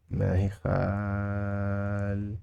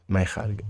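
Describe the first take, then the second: First: "خالقة" softly held long, last syllable detached; drawn-out teaching take. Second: Said in the usual way. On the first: Shown as a demonstration. Teacher modelling we don't have it, drawn-out teaching take. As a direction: stretch "خالقة" and pause before its ending.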